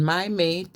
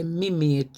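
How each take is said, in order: First: Said in the usual way. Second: "me" in place of my; Scouse "me". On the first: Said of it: "Instead of saying". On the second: Shown as a demonstration. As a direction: say "me mate" with an EE vowel. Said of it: "my" become "me".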